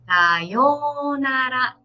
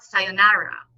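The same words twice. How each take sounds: First: "sayonara" very slow, clear Japanese r; correct slow sayonara. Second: "sayonara" with an English r and stressed na; wrong english-style sayonara. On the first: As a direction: say "sayonara" slowly and evenly. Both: Shown as a demonstration. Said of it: "It's not".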